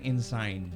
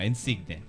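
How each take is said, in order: First: The name is said with two syllables, like Ensign. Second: The name is said with three syllables, In-sig-ne. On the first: It is read as an English word. "If you read it, parang Ensign" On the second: It is said the Filipino way. "Filipino Insigne"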